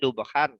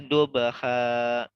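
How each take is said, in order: First: The word ends with a final n sound. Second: The word ends on an open vowel, no n. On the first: The reading continues past this word. "Tadinya ada tanwinnya nih, harusnya kan dibaca dubahan" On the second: The reading stops at this word. "karena di wakaf diberhentikan ... Jadi dibaca dubaha"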